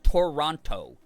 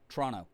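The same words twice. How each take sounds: First: Every syllable and sound is said fully. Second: The middle t sound is dropped, shortening it. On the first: The speaker calls it wrong. "You don't say it Toronto" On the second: The speaker calls it right. "spelled like you say it like it's spelled T R O N O"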